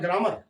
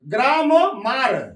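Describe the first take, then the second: First: It is said as one smooth word, 'gramer'. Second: It is split into two parts, 'gram mar'. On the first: "अर्थात ग्रामर" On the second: "बिगाड़ कर जब पढ़ेंगे"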